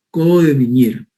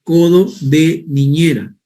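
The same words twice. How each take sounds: First: Said in the usual way. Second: Codo de niñera said slowly, each word spelled out clearly; slow emphatic term. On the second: Shown as a demonstration. Teacher to students introducing the term, slow and clear. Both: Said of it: "también se le llama".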